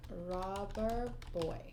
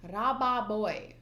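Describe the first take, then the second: First: Said in the usual way. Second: Put-on Raba boy with a Japanese r and a flat vowel; Japanese-style pronunciation. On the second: Shown as a demonstration. Working out the Japanese name, Japanese-style sounds. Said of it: "Rubber is Gomu".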